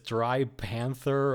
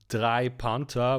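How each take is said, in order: First: The name is read with English pronunciation. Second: The name is read with German pronunciation. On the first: It sounds like the opposite of a wet panther. "or you read it as Dry Panther" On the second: It means three panthers. "You either read this as German"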